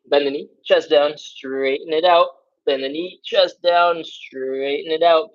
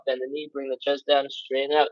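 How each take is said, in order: First: Slow, drawn-out cue; unhurried coaching cue. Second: Rushed count. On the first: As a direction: take the cue slowly, stretching each word. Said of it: "You can slow down". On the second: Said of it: "I went through those real fast". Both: Shown as a demonstration.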